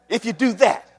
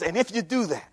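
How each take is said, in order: First: "do that" pushed up higher and stronger; firm, raised stress on "do that"; emphatic repeat. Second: Said in the usual way. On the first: Acted. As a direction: lean hard on "do that". Repeats phrase with more force.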